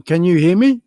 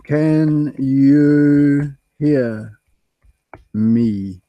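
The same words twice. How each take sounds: First: Said in the usual way. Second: Very slow, each word stretched out; drawn-out sound check. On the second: Real, not acted. Streamer checking whether viewers can hear, very slowly. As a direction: stretch every word with gaps, as if testing a bad line.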